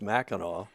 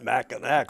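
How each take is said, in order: First: The name is said unlike its spelling. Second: The name is said just like its spelling. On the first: This is how locals say it. "by Michiganders anyway, properly as" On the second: This is how outsiders say it. "non-Michiganders tend to pronounce it Mackinac like it's spelled"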